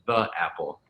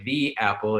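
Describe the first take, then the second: First: The word 'the' is said with a short 'uh' vowel. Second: The word 'the' is said with a long 'ee' vowel. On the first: This is the form the screener marks as an error. "instead of the apple" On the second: This is the form the screener requires before a vowel. "you're supposed to say the apple"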